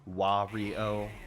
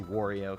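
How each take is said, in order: First: The first syllable is a clear 'wa' sound. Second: The first syllable is said in a lazy way. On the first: The speaker calls it right. "it's definitely pronounced Wario with you know, 'cause he says Wa" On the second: The speaker calls it wrong. "I always say Wario because my pronunciation is lazy"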